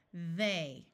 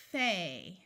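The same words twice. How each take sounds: First: They begun with a buzzing voiced th. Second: Thay begun with a breathy voiceless th; unvoiced th. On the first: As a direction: buzz the th of They with voice. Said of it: "with the voice sound". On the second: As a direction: hiss the th of Thay without voice. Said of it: "using the unvoiced th". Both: Shown as a demonstration. Teacher contrasting voiceless and voiced th.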